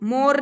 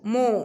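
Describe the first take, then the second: First: The word ends with a clear r sound. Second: The word ends on the vowel, no r. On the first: The speaker calls it wrong. "मोर नहीं बोलते इसको" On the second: The speaker calls it right. "आर is silent"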